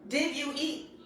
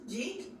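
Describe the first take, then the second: First: Each of the three words is said separately. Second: The phrase is squeezed into one short syllable.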